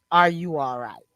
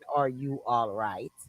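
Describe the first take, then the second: First: It is said in an annoyed, defensive tone. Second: It is said in a caring, concerned tone. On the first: The asker feels his time is being wasted. "It's like in a defensive" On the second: The asker genuinely cares about the person. "not like in a concern"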